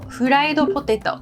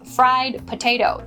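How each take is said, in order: First: It is said with a Japanese pronunciation. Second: It is said with an English pronunciation. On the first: "The next Japanese word is fried potato" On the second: "This means fried potato"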